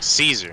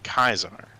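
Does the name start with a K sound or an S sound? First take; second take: S sound; K sound. First: The name begins with an S sound. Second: The name begins with a K sound. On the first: This is how most players will say it. The speaker calls it wrong. "everybody's gonna pronounce it Caesar" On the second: This is the pronunciation the speaker uses. The speaker calls it right. "you mean Kaisar?"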